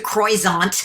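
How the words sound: It is said with an American pronunciation.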